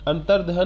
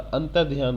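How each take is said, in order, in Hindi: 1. यह शब्द 'dh' के बाद बिना 'y' के बोला जाता है। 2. यह शब्द 'dh' के बाद 'y' के साथ बोला जाता है। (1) "नहीं बोलता" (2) "बोलता है"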